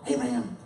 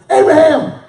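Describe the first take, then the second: First: It is said softly and gently. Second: It is said loudly and forcefully.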